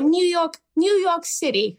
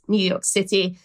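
First: It is said in a half-hearted New York accent. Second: It is said in a plain British accent.

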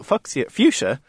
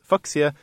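First: The word is said the usual English way. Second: The word is said like the German surname Fuchs. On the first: The speaker calls it wrong. "as everyone calls it" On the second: The speaker calls it right. "should be pronounced Fuchsia because it was named after German botanist Leonard Fuchs"

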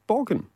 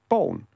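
First: The g sound in the middle is pronounced. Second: The g sound in the middle is dropped. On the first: "like you pronounce it" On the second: "which is how we pronounce it"

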